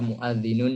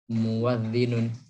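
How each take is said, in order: First: A glottal stop is in the middle. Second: A w sound is in the middle. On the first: "merubah hamzah menjadi wawu"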